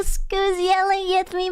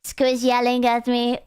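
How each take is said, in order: First: High, slow, drawn-out coo; play-moan it in a high put-on voice; teasing, stretched-out high whine; mock swooning. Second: Said in the usual way. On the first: Mock swooning repeat of line.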